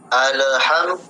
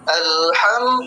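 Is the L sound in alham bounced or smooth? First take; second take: bounced; smooth. First: The L is given an added echoing bounce. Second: The L is joined smoothly with no added bounce. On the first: The speaker calls it wrong. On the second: The speaker calls it right. "seperti itu"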